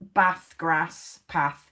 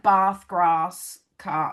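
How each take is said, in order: First: "Bath, grass, path" with a short A, as in cat; northern English flat A in "Bath, grass, path"; short-vowel accent. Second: "Bath, grass" with a long AH, as in father; southern English long A in "Bath, grass"; long-vowel accent. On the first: Shown as a demonstration. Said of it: "I'm like". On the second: Retold or imitated. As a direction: say "Bath, grass, car" as "bahth, grahss, cah". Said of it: "My partner's like".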